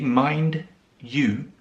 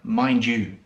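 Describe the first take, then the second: First: The two words are said apart, without linking. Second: The words merge, with a j sound joining them. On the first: "if you say the words separately" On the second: "when we say them together, ... So you have the j sound"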